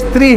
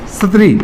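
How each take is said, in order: First: No vowel is heard after the s. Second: A full vowel is heard after the s. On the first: This is how the word is read. "पढ़ते इसको स्त्री हैं" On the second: This is how the word is written. "लिखते हम सत्री हैं"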